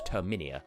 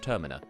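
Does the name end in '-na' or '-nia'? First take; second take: -nia; -na. First: The name ends in an added '-nia' sound. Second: The name ends in a plain '-na' sound. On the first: The speaker calls it wrong. "as some people call it, Terminia ... if you pronounce it that way, you are just canonically wrong" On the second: The speaker calls it right. "I know that the world is somewhat based on Termina"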